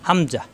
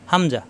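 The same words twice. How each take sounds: The two takes are said the same way.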